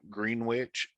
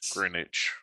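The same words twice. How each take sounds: First: The W sound is pronounced in the middle. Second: The W sound is left out entirely. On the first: The speaker calls it wrong. "you don't pronounce the W in Green Greenwich" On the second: The speaker calls it right. "it's Greenwich"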